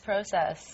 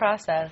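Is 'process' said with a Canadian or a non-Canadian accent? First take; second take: Canadian; non-Canadian. First: It is said with a Canadian accent. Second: It is said without a Canadian accent. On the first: This is how Canadians usually say it. "usually process is process" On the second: This hides the Canadian accent. "Corey says"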